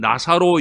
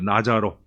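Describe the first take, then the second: First: The middle consonant is an s sound. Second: The middle consonant is a j sound. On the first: This is the form Protestants have traditionally used. The speaker calls it wrong. "우리는 나사로 이러는데" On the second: This is the form Catholics use. The speaker calls it right. "지읒 발음이에요. 그래서 사실은 나자로 해야 맞아요"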